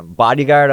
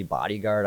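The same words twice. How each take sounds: First: Raised, louder bemused question; laughing at the odd word Bodyguard; amused surprise. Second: Soft, unsure repeat of Bodyguard; quietly questioning Bodyguard; doubtful. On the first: Friend calls him bodyguard, he replies amused and surprised. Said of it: "and so I'm laughing". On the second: Friend doubts his bodyguard vision, softly unsure. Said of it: "now he has doubt in his voice". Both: Retold or imitated.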